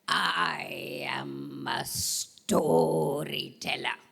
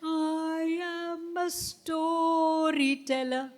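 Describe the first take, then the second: First: Lower, very slow grand voice; deep storyteller voice. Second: Higher, very slow singsong; high storyteller voice. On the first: Teacher showing the class a deep, slow storyteller voice. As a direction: drag it out low and grand. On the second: Teacher showing the class a high, slow storyteller voice. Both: Shown as a demonstration. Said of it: "Which voice?".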